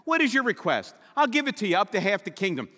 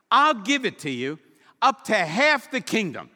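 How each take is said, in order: First: Mildly lifted, quick formulaic royal promise; king speak. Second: Louder, higher grand royal promise; generous king. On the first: Retold or imitated. Preacher imitating how kings talk, lightly voiced. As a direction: rattle off the stock royal line. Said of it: "That's king speak". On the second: Acted. King Xerxes promising Esther half his kingdom, grand. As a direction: boom it out like a lavish monarch.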